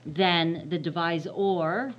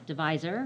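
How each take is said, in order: First: Slow, leaning hard on "divisor"; stress on divisor. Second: Said in the usual way. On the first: Shown as a demonstration. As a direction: drag out "divisor" so it sticks. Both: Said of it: "I'm emphasizing or".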